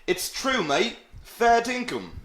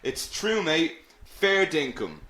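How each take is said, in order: First: High-pitched, exaggerated Aussie accent; bad Australian accent. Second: Milder take on a bad Aussie accent; lightly put-on Australian accent. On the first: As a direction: put on a badly faked Australian accent. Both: Shown as a demonstration. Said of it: "That was a very bad Australian accent".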